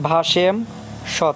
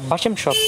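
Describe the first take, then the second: First: The word is split with a pause inside. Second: The word is said in one go without pause. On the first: The speaker calls it wrong. "যদি বলি ভাসেম সৎ, তাহলে সঠিক উচ্চারণ হবে না" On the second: The speaker calls it right. "একবার এইভাবে উচ্চারণ করতে হবে"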